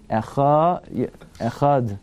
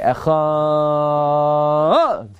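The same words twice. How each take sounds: First: The word is said with a steady tune. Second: The word is said with a changing tune. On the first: The speaker calls it right. "you don't change the tone. Echad. That's it" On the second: The speaker calls it wrong. "you shouldn't say Shema like that"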